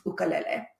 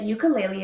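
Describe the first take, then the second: First: "ukulele" said oo-kuh-LEH-leh; "ukulele" in its original form, oo-kuh-leh-leh; original pronunciation. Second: "ukulele" said you-kuh-LAY-lee; "ukulele" as YOO-kuh-LAY-lee; Americanized version. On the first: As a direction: say "ukulele" with "oo" first and "leh" last. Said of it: "the Americanized version". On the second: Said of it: "is the Americanized version". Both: Shown as a demonstration.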